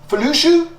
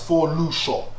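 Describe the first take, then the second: First: The first syllable is said as 'Fe'. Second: The first syllable is said as 'Fo'. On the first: The speaker calls it wrong. "You're like, um, Felushu?" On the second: The speaker calls it right. "how can you not see that's for Lusho?"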